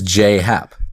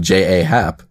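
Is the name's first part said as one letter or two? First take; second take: one letter; two letters. First: The first part is said as one letter. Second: The first part is said as two letters. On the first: The speaker calls it right. "So it is J-Hap" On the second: The speaker calls it wrong. "I've gone about my life calling him J-A-Hap"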